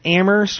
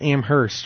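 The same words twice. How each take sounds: First: The H sound is silent. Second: The H sound is clearly pronounced. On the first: "without the H" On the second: "with the H"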